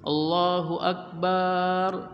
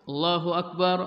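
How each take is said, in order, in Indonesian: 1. Vokal setelah b dipanjangkan. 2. Vokal setelah b dibaca pendek.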